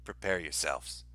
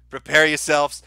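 First: Much lower and softer, an eerie intonation; hushed, low doomsday voice; ominous prophet voice. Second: Said in the usual way. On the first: Pretend. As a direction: intone it like a doom-sayer. Mock ominous warning, repeated plainly.

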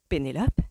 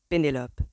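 First: Questioning rise on the name; doubtful. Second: Name stated with a final fall; firm confirmation. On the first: Mother repeats the name to Colin, doubtful. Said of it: "d'un ton dubitatif". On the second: Colin answers mother's doubt, firm confirmation. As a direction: confirm it, no question left. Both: A narrator's reading.

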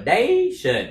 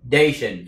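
First: "dation" with DAY swooping up too high; over-raised stress. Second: "dation" with a firm push on DAY, pitch unraised; stress without raised pitch. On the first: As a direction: overdo the pitch lift on the first syllable of "dation". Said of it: "thì không được". ("dation" nâng giọng quá cao ở âm đầu) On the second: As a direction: punch the first syllable of "dation" without lifting it. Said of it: "nhưng mà nhấn mạnh vào nó". ("dation" nhấn mạnh âm đầu, không nâng giọng) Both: Shown as a demonstration.

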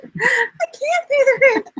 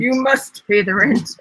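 First: High, slow wailing damsel; damsel in distress. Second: Twirl the mustache and sneer; mustache twirling villain. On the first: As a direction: wail it like a helpless heroine. Melodrama damsel reply. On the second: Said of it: "style your mustache". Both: Acted.

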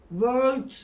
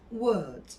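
First: "World" as "vörlt", hard r and t; slow, loud "World" with v and sounded r; wrong world, as spelled. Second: "World." as "wöld", silent r; correct world. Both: Shown as a demonstration. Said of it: "World değil".

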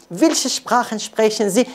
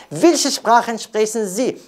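No difference in how they are said.

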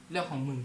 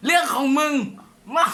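First: Quiet mocking reply to a chat comment; low muttered retort. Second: Loud mocking reply to a chat comment; loud retort. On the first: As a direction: say it much lower and softer, under the breath. Third take of the same comment. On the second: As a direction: punch it out high and loud. Streamer reads a rude comment aloud.

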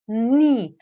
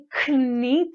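First: Knee said slowly as "nee", no k sound; silent k. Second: Knee said with the k sounded, "k-nee"; wrong pronunciation. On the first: Teacher giving the right way, silent k, slowly. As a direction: drop the k and stretch out knee. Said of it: "tylko knee". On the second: Teacher showing the wrong way with a hard k. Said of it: "Nie knee". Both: Shown as a demonstration.

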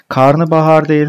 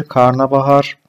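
First: "Karnabahar" stressed high and loud as the mistake; wrong form. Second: "karnabahar" said evenly as the right word; correct form. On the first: Teacher warns students off the misspelling, raised voice. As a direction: flag "Karnabahar" as wrong, louder and higher. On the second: Teacher corrects the class calmly. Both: Shown as a demonstration.

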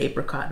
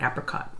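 First: APRICOT with a long A as in ape; own pronunciation. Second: APRICOT with a short A as in apple; other person's pronunciation. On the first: Shown as a demonstration. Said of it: "I've always said apricot". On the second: Retold or imitated. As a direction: say "apricot" as "APP-ri-cot". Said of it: "you're an apricot person".

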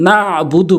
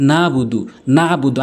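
First: "না'বুদু" with a squeezed throat ayn after না; আইনে চাপ. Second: "না'বুদু" with a smooth open vowel, no ayn; আইন ছাড়া ভুল উচ্চারণ. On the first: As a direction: press the ayn firmly in "না'বুদু". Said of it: "চাপ দিয়ে উচ্চারণ করতে হবে". ("না'বুদু"-তে আইন চাপ দিয়ে উচ্চারণ) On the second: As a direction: skip the throat squeeze in "না'বুদু". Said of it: "আইনের উচ্চারণ করেই না". (আইন বাদ দিয়ে "না'বুদু" বলা) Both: Shown as a demonstration.

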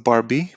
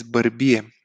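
First: Barbie said the English way, BAR-bee. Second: Bărbie in Romanian, bər-BI-e, with a schwa and final e. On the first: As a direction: say Barbie like the doll's name, in English. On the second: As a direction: stress bărbie on the bi, three syllables. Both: Shown as a demonstration. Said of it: "This is not Barbie, but is bărbie".

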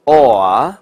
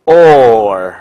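First: "or" said without curling the tongue; "or" with no r sound at the end; wrong, no r sound. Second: "or" ending in a curled-tongue American r. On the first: Teacher shows students the wrong "or" without an r sound. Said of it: "不是读成". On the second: Teacher shows students "or" with a curled-tongue r. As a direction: curl the tongue at the end of "or". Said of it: "而是要读成". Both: Shown as a demonstration.

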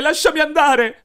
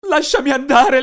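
First: Higher, louder repeated scream; frantic pleading scream. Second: Loud high desperate scream; terrified shout. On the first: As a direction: scream it again even higher. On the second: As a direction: scream to be released. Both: Acted. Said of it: "io urlai".

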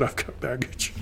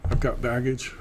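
First: Mock support-group confession, softer. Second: Said in the usual way. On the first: Teacher mimicking a support group member, mock confession. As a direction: introduce yourself to the group, sheepish and hushed. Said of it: "Hi, my name's Judd".

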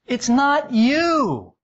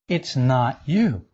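First: High gushing voice. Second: Said in the usual way. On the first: Shown as a demonstration. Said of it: "lying eyes saying it could be".

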